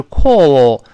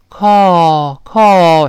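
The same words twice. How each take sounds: First: "call" with a rounded, drawn-out British vowel. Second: "call" with a wide, sigh-like open vowel, louder; American CALL. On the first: Teacher contrasts accents for students, British rounded CALL. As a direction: round the lips tightly on "call". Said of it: "英式发音是call". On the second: Teacher models American vowel for students, open CALL. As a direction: open "call" up long, like sighing "ah". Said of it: "美式发音呢， 嘴大一些". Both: Shown as a demonstration.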